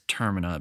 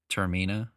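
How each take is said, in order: First: The name is said like 'terminal'. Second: The name is not said like 'terminal'. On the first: The speaker calls it wrong. "some people think it's Termina because it's like terminal" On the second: The speaker calls it right. "that's the correct pronunciation"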